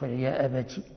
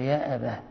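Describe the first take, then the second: First: The word ends with a t sound. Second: The word ends with an h sound. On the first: The speaker calls it wrong. "ولا تقف عليه بالتاء" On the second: The speaker calls it right. "تقف عليه بالهاء"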